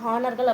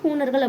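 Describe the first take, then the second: First: The first vowel is an open 'ah' sound. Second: The first vowel is a long 'oo' sound. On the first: This is the English-style pronunciation. "இங்கிலீஷில் அதை ஹானர்கள் அப்படின்னு pronounce பண்ணுவாங்க" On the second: This is how it is read in Tamil. "நாம் தமிழில் படிக்கும்போது ஹூணர்கள் அப்படின்னு படிச்சிருப்போம்"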